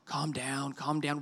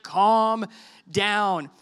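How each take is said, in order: First: Put-on soft, low, hushed calm down to the kids; soothing parent. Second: "calm" hit louder, then a pause before "down"; firm calm down. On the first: Parent hushing panicking kids, soft and soothing. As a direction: settle a child gently, quietly. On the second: Retold or imitated. Parent telling freaking-out kids firmly, "calm" punched. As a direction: stretch out "calm", land a firm "down". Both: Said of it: "I say that all the time with my kids".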